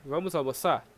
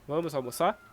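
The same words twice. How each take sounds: The two takes are said the same way.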